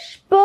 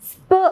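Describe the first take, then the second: First: "ഷ്പ്" as shp, with a clear sh. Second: "സ്പ്" as sp with a clear s; plain S sound. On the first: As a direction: put a sh before the p in "ഷ്പ്". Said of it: "ഷ്പ് എന്നാണ് പറയുക". ("ഷ്പ്" ഷ് ഉച്ചരിച്ച്) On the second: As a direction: say "സ്പ്" with s, not sh. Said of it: "സ്പ് എന്ന് പറയരുത്". ("സ്പ്" സ് ഉച്ചരിച്ച്) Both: Shown as a demonstration.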